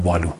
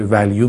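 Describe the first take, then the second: First: والو said "VA-lu", long a and no y glide; تلفظ غلط value. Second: ولیو said "VAL-yu", with a y glide; تلفظ درست value. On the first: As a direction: drop the y sound, say والو as "valu". (تلفظ value به شکل «والو») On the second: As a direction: put a y sound before the final u of ولیو. (تلفظ value به شکل «وَلیو») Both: Shown as a demonstration.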